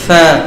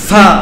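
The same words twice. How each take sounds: First: The letter is touched lightly and softly. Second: The letter is pressed hard and forcefully. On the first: The speaker calls it right. "নরম করে লাগাইতে হবে।" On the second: The speaker calls it wrong. "ফা বললে হবে না"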